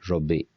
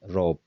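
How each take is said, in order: First: The final vowel is clearly pronounced. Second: The final vowel is dropped entirely. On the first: The speaker calls it right. "Robi is the right uh, Oromo word" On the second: The speaker calls it wrong. "if I make it silent"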